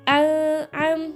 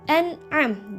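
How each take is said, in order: First: The n sound is blurred and not clearly heard. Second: The n sound is pronounced clearly before the ain. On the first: The speaker calls it wrong. "enggak boleh al-am, enggak boleh gitu" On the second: The speaker calls it right. "Harus an'am, jelas"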